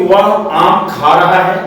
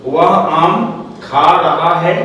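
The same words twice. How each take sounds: First: Said in the usual way. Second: Slow, word-by-word example sentence; slow dictation. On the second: Shown as a demonstration. Teacher repeating an example for students to follow, slow dictation. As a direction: spell it out slowly, pausing between words.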